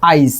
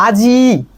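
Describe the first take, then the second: First: আইজ with the i sounded before the j; shifted i sound. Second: আজি with a long i after the j; final i stretched. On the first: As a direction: say আইজ, i moved ahead of the final j. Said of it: "আজি থেকে আমি বললাম হচ্ছে". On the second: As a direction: draw out the closing i of আজি. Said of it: "আজি বলার সময় আজি, জি, জি এর পরে". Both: Shown as a demonstration.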